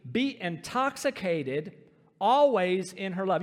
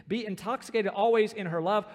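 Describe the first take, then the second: First: Be intoxicated always in her love, slowed right down, always louder; weighty scripture read, drawn out; slow emphatic reading. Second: Said in the usual way. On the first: Shown as a demonstration. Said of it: "underline that word, intoxicated". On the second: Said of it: "underline that word".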